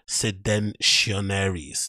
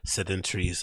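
First: The word is said like 'seditionaries'. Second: The word is said like 'sedentaries'. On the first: The speaker calls it right. "that's it" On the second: The speaker calls it wrong. "I didn't even say it properly"

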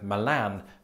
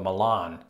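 First: It is said the way British speakers say it. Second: It is said the way American speakers say it. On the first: "Brits like me saying Milan" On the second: "Americans usually opting for Milan"

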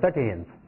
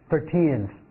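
First: The second syllable is weak and blurred. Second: The second syllable is clearly stressed. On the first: The speaker calls it wrong. "他不会读的非常非常的很模糊" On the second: The speaker calls it right. "他一定会将十几里面的teen 呢进行一个着重"

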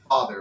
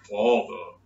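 First: The ah vowel is made further forward in the mouth. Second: The ah vowel is made far back in the throat. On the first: The speaker calls it right. "It's forward. It's a forward ah sound" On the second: The speaker calls it wrong. "It's not like in the back of your throat, like father. No one says father"

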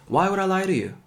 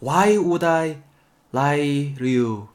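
First: The sentence is spoken quickly. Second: The sentence is spoken slowly. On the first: The speaker calls it right. "좀 빨리 말씀하실 때" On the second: The speaker calls it wrong. "천천히 말할 때"

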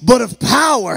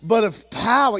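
First: It is read in a Pentecostal preaching voice. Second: It is read in a plain reading voice.

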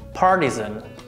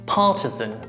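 First: It is said with American pronunciation. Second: It is said with British pronunciation. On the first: "American pronunciation" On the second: "British pronunciation"

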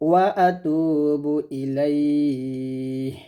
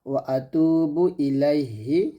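First: The last word ends on a bare 'h' sound. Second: The last word ends with a short 'i' vowel. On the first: "থামলে এ হাটা সাকিন করে হয়ে যাবে" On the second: "এখানে আছে ওয়া আতুবু ইলাইহি"

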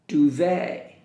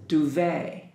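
The two takes are said the same way.

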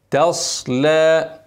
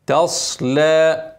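The two takes are said the same way.

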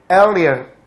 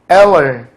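First: The middle 'li' syllable is clearly pronounced. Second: The middle syllable is reduced, almost two syllables. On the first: The speaker calls it wrong. "엘리언 이가 아니라" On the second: The speaker calls it right. "앨런 이렇게 돼서"

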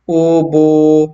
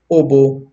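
First: The vowels are drawn out long. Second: The vowels are short and clipped. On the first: The speaker calls it wrong. "nalagyan na natin siya ng waw na madda" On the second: The speaker calls it right. "Kailangan mabasa natin ito na may maikli lang na katinig"

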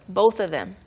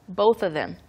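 Both takes have the same delivery.

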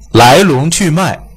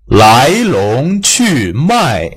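First: The main vowels are short and not opened wide. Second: The main vowels are stretched and opened wide. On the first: The speaker calls it wrong. "你就变成来龙去脉来龙去脉" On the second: The speaker calls it right. "你看你如果来龙去脉不这样读的话"

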